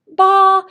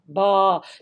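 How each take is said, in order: First: The pitch stays high and level. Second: The pitch stays low. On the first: "They have a high sound" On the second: "They have a low sound"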